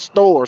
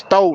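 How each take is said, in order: First: The word ends with a clear r sound. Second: The word ends without an r sound. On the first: The speaker calls it wrong. "not store" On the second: The speaker calls it right. "it's store, ... S T O"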